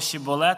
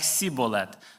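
First: The word begins with an 'sh' sound. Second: The word begins with an 's' sound. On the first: The speaker belongs to the group. The speaker calls it right. "не могли вимовити слово «шіболет»" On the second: The speaker is an outsider, an enemy. The speaker calls it wrong. "а вимовляли, знаєте, як «сіболет»"

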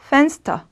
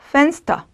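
No difference in how they are said.

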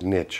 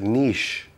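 First: The word is said with an American pronunciation. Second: The word is said with a British pronunciation. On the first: "Americans pronounce it niche" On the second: "We pronounce it niche"

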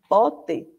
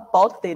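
First: The final vowel sounds like i. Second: The final vowel sounds like an open e. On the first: The speaker calls it right. "termina com E, tem o som de I" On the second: The speaker calls it wrong. "A gente não fala pote"

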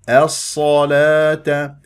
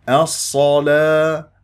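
Both takes have the same delivery.

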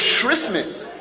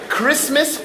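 First: The word begins with a sh sound. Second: The word begins with a k sound. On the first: "C-H is ish" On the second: "C-H is k"

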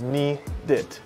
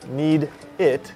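First: The d links smoothly into the following word. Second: The two words are said separately and clearly. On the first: "when she speaks quickly, it becomes need it" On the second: "instead of saying need it"

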